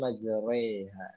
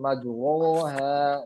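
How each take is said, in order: First: The vowel after r leans toward e. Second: The vowel after r is a full open a. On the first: The speaker calls it right. "tapi majreha. Seperti imalah ya" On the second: The speaker calls it wrong. "Jadi bukan majroha"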